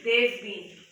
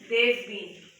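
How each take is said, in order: First: Have is shortened and joined to they. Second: Have is shortened and joined to they.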